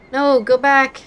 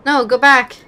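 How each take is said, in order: Both takes have the same delivery.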